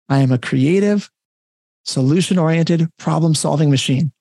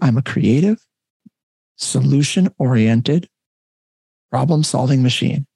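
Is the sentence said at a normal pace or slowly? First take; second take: normal; slowly. First: It is spoken at a normal pace. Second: It is spoken slowly and deliberately. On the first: "I'll say it normal speed once" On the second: "Say it more slowly"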